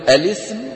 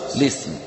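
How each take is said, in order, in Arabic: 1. تبدأ الكلمة بحركة قبل اللام. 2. تبدأ الكلمة مباشرة بصوت l. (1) "وأحذف الهمزة أم أقول الاسم" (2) "أو لسم"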